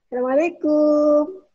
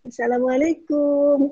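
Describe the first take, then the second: First: "Assalamualaikum" much higher and louder, rising; the way most Arabs sing the greeting. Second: "Assalamualaikum" high and louder with "kum" stretched long; long final syllable. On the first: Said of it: "Kan gitu kebanyakan". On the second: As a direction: lean into the long "kum" at the end. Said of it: "Kumnya yang panjang". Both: Shown as a demonstration.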